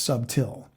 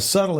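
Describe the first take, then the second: First: The word ends in a clear 'till' sound. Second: The word ends in a soft 'tle' sound. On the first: This is the old form from 1611. "it literally was pronounced subtil at the time in sixteen eleven" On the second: This is the modern form of the word. "subtle is S U B T L E"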